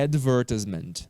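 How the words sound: It is said with a British accent.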